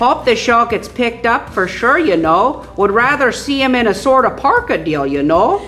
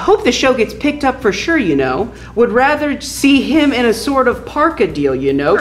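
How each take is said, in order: First: It is read in a Fargo accent. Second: It is read in a plain accent.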